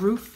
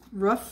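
First: The word has a standard vowel. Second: The word has a Midwestern vowel. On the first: The speaker calls it right. "instead of roof, or however it's pronounced" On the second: The speaker calls it wrong. "I'm from the Midwest, and we say roof"

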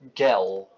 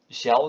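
First: The g is pronounced the German way. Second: The g is pronounced the Dutch way. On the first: "zeggen ze op zijn Duits gel" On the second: "Waar wij dus gel zeggen"

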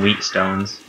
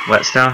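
First: The first syllable has a long 'ee' sound. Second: The first syllable has a short 'e' sound. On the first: The speaker calls it wrong. "I always call them wheat stones" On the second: The speaker calls it right. "what's the proper pronunciation anyways?"

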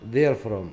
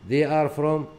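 First: The verb is contracted onto the pronoun. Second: The verb is said as a separate full word.

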